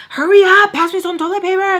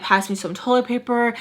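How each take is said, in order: First: High, urgent re-enacted demand; freaking out. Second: Said in the usual way. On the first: Telling friend to pass toilet paper, high frantic urging. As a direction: mimic a panicked hurry-up, voice shooting up. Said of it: "Like, I'm freaking out". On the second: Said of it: "So then I tell her".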